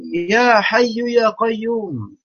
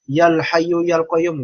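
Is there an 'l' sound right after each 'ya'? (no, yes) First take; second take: no; yes. First: Each 'ya' is said without an added 'l' sound. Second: Each 'ya' is followed by an added 'l' sound. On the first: The speaker calls it right. "jangan pakai alif lam" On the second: The speaker calls it wrong.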